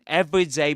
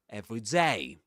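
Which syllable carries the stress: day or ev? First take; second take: ev; day. First: The stress falls on the first syllable, ev. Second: The stress falls on the last syllable, day. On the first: It means ordinary or typical, as one adjective. "in every day as one word, the stress goes on ev" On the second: It means each day, as two separate words. "the stress goes on day"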